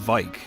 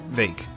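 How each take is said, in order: First: The vowel sounds like the one in 'bike'. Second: The vowel sounds like the one in 'bake'. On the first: The speaker calls it wrong. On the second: The speaker calls it right.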